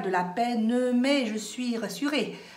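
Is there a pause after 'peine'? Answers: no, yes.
no. The phrase runs on without a pause after 'peine'. The speaker calls it wrong. "vous ne dites pas"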